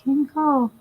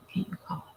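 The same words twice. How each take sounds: First: Mock caller. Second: Unvoiced mocking whisper. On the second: Vlogger mocking a coworker, soft whisper. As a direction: hush it as a mocking aside.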